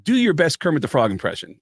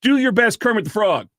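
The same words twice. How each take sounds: First: Said in the usual way. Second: Higher-pitched, pushy mock command; a touch of bossy insistence, raised pitch; mock rude demand. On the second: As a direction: imitate a curt order taken out of context. Edited clip makes him sound rude.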